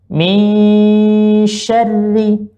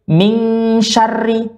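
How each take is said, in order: First: The n flows directly into the sh sound. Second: The n is said separately before the sh. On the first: The speaker calls it right. "tapi langsung di huruf uh, shinnya" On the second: The speaker calls it wrong. "jangan dibaca lagi min syarri"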